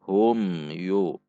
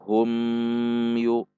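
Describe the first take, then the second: First: The m sound is short and clear. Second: The m sound is drawn out long. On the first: The speaker calls it right. "tidak boleh dibaca panjang namun dibaca jelas" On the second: The speaker calls it wrong.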